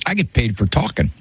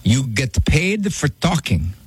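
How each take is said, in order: First: Said in the usual way. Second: Put-on slow, puzzled Italian-accented question; broken Italian accent. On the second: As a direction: question it slowly like an Italian grandfather. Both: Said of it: "in his broken Italian accent".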